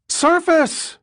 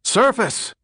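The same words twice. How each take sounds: First: Much higher, loud panicked scream; screamed order. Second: Shouted order. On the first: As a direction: scream it as the boat tumbles. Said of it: "Condon's voice rose to a scream". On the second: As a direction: bark the order up at full voice. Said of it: "shouted Dick Condon". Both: Acted.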